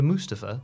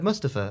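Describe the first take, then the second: First: The first syllable has a long 'oo' vowel. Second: The first syllable has a short 'uh' vowel. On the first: The speaker calls it right. "you've corrected me to Mustafa" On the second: The speaker calls it wrong. "I said Mustafa"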